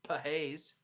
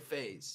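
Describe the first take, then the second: First: The 'ph' is sounded as p then h. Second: The 'ph' is sounded as a single f. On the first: The speaker calls it wrong. "you don't say Pahaze" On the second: The speaker calls it right. "you say phase"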